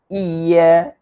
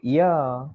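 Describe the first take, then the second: First: "iya" as iy-ya, loud, leaning on the y; doubled y. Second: "iya" as loose i-ya, y not doubled; wrong single y. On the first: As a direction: press and hold the y in "iya". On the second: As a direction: let "iya" slide by without holding the y. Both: Shown as a demonstration. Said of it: "Jangan lagi baca iya".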